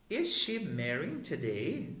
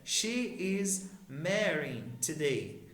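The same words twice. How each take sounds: First: "Is she marrying today?" slowly, rising on "today"; question intonation. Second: Said in the usual way. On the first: Shown as a demonstration. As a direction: ask it with a clear upswing at "today". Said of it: "mudar a entonação da nossa pergunta". ("Is she marrying today?" subindo o tom em "today", como pergunta) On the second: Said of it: "Agora eu quero perguntar".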